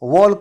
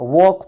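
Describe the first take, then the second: First: The L sound is pronounced. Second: The L sound is silent. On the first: The speaker calls it wrong. "इस word को मैंने वॉल्क नहीं पढ़ा है" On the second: The speaker calls it right. "इस word को मैंने वॉक पढ़ा है"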